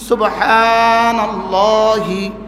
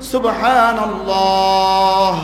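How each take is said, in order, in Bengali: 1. শব্দটি শেষ হয়েছে একটি ই স্বরধ্বনি দিয়ে। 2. শব্দটি শেষ হয়েছে h দিয়ে, কোনো স্বরধ্বনি ছাড়া। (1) "মূল শব্দ ছিল সুবহানাল্লাহি" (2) "ওয়াকফের সময় জজম হয়ে গেছে"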